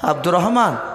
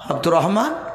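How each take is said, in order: No difference in how they are said.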